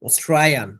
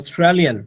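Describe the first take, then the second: First: The middle 'l' sound is dropped entirely. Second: The middle 'l' sound is clearly pronounced. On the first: "ওদের সাউন্ডটা শোনা যায় অস্ট্রায়ান" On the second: "আমরা বলি কি অস্ট্রেলিয়ান"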